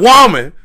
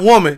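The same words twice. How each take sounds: First: The word is drawn out in a soulful singer style. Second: The word is said plainly in a normal voice. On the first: The speaker calls it right. "You got to be like, woman. You gotta say it like that" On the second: The speaker calls it wrong. "Not woman"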